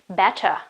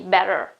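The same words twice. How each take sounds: First: It is said with a British accent. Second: It is said with an American accent. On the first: "if I tried to use uh, um, British English, I would rather say better" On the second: "if I try to use an American English, I would say uh, probably better"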